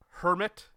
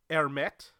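First: It sounds like the ordinary English word hermit. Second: It has an altered, fancy-sounding pronunciation. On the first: The speaker calls it wrong. "I've mispronounced it" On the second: The speaker calls it right. "It's Hermet"

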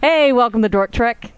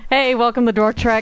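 First: It is said with lively enthusiasm. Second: It is said flatly, without enthusiasm.

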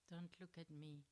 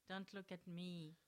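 First: It is said in a guilty tone. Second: It is said in a neutral tone.

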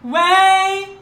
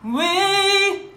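First: The vowel is wide and comes straight from the throat. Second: The vowel is lifted vertically behind the soft palate. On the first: The speaker calls it wrong. "Instead of saying way" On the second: The speaker calls it right. "It goes vertical. It goes behind your soft palate and up"

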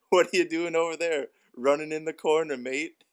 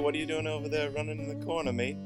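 First: The phrase is said at a slow pace. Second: The phrase is said at a fast pace.

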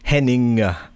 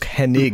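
First: The name ends with an "-ing" sound. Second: The name ends with an "-ig" sound. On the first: The speaker calls it wrong. "all my life I've said Kurt Hennig, like I-N-G" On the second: The speaker calls it right. "and it's Hennig"

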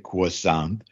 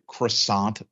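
First: It is said with a French accent. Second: It is said with an ordinary English accent.

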